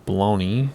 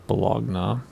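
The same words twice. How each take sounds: First: "Bologna" said buh-LOH-nee; Bologna as "baloney". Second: "Bologna" said buh-LOG-nuh, G sounded; Bologna ending in "nuh". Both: Shown as a demonstration. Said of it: "I'm embarrassed. I don't know".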